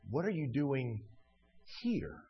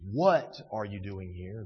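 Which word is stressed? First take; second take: here; doing. First: The stress is on here. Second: The stress is on doing.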